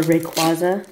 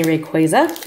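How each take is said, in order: First: Rayquaza with a "kwah" middle; second variant of Rayquaza, "kwah" vowel; Rayquaza said "ray-KWAH-za". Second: Rayquaza with a "kway" middle; first variant of Rayquaza, "kway" vowel; Rayquaza said "ray-KWAY-za". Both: Shown as a demonstration. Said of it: "depending on who you are".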